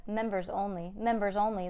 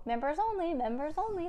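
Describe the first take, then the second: First: Said in the usual way. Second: High-pitched parrot squawk. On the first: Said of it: "the parrot, oh". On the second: A narrator's reading. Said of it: "the parrot squawked".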